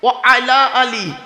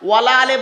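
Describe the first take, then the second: First: It is said as 'wa ala ali', with 'ala' kept separate. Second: It is said as 'wala ale', with 'wa' and 'ala' merged. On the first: The speaker calls it right. "আছেটা কি? ও আলা আলী" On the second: The speaker calls it wrong. "ওয়ালা আলে বলবেন না। ওয়ালা আলে বলে কোনো শব্দ নেই।"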